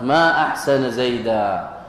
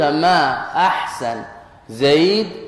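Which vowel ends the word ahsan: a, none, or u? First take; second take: a; none. First: Both words end in the accusative vowel a. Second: The words end without any final vowel. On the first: It expresses wonder at how good he is. "لأنك نصبت أحسن ونصبت زيدا" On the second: The intended meaning stays unclear. "هكذا بالتسكين"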